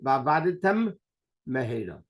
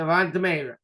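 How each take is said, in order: First: Each word keeps its own m sound. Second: One m sound is shared by both words. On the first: The speaker calls it right. "You have to say" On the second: The speaker calls it wrong. "you make one mem for both"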